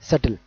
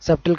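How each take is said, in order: First: No b sound is heard before the t. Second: A b sound is heard before the t. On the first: The speaker calls it right. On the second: The speaker calls it wrong. "సబ్టిల్ కాదు"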